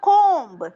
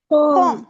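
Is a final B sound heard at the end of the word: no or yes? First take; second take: yes; no. First: The word ends with an audible B sound. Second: The word ends on M with no B. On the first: The speaker calls it wrong. "பியையும் சேர்த்து சொன்னா கோம்பு. But we can't pronounce it like that" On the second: The speaker calls it right. "It's just கோம். That's all"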